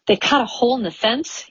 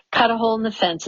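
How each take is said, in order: First: "They cut a hole in the fence?" rising at the end; "fence" pitched up as a question; questioning echo. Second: Said in the usual way. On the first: A narrator's reading. Incredulous echo of the narrated statement.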